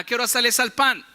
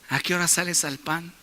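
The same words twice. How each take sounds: First: It is said in a plain, neutral tone. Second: It is said in a flirtatious, charming tone.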